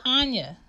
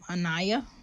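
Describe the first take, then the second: First: The name is said with two syllables. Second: The name is said with three syllables. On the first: The speaker calls it right. "It's Anya" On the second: The speaker calls it wrong. "He was like, um, Anaya? Where you get Anaya?"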